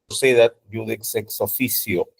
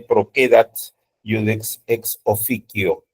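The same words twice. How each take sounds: First: The c before e and i sounds Spanish. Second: The c before e and i sounds like k. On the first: "Si han estudiado latín con la escuela española" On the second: "la pronunciación alemana... la C se pronuncia como K"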